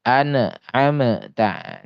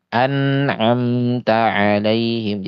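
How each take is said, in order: First: "An'amta" very slow, split as a-na-a-ma-ta; broken wrong reading. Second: "An'amta" slow, m and t flowing unbroken; flowing correct reading. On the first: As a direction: chop "An'amta" into bouncing pieces. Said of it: "Ini yang terputus". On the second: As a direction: glide through "An'amta" without a break. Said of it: "tidak sampai terputus". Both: Shown as a demonstration.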